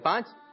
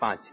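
First: The number is said in a showy, boastful tone. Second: The number is said in a plain, modest tone. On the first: The speaker is showing off having more. The speaker calls it wrong. "یوں نہیں بولنا چاہیے" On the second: The speaker is simply stating the amount. The speaker calls it right. "یوں بولنا چاہیے"

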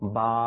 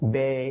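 First: It ends in an Arabic-style 'a' vowel. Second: It ends in an Urdu-style 'e' vowel. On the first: The speaker calls it right. "এটা হচ্ছে কি? আরবি উচ্চারণ।" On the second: The speaker calls it wrong. "এটা হচ্ছে কি? উর্দু উচ্চারণ।"

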